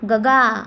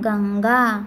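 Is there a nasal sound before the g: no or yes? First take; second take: no; yes. First: It is said with no nasal sound. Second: It is said with a nasal sound.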